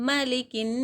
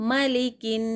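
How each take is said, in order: The two takes are said the same way.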